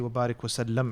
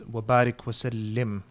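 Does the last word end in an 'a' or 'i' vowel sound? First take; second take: a; i. First: The last word ends with an 'am' sound. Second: The last word ends with an 'im' sound. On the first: The speaker calls it wrong. "when you say Wabarik Wasallam, it changes the meaning" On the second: The speaker calls it right. "it's Wabarik Wasallim"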